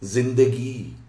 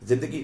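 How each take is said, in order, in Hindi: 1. अंतिम स्वर पूरी तरह लंबा खींचा जाता है। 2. अंतिम स्वर छोटा करके काटा जाता है।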